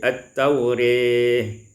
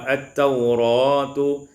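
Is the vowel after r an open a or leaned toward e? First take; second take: e-like; open a. First: The vowel after r leans toward e. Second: The vowel after r is a plain open a.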